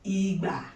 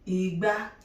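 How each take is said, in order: First: The second syllable is pitched lower than the first. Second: The second syllable is pitched higher than the first. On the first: It means a palm-wine tapping instrument. "the instrument that you use to tap and wine is Igba, redo" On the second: It means calabash. "Calabash, Igba, re, mi"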